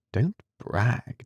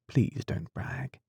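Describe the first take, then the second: First: Said in the usual way. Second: Softer and slow, "brag" lifting at the end; slow soft pleading with a rise on "brag"; gentle pleading. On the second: Acted. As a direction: coax him tenderly to stop bragging.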